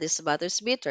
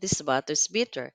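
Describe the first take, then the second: First: It is said at a fast pace. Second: It is said at a slow pace.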